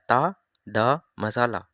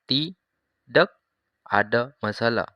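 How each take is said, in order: First: The first word is said shortened. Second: The first word is said in full. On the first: "आपने शॉर्ट बोलना है" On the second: "अगर ओरिजिनल है उसको बोलते हैं तीडक।"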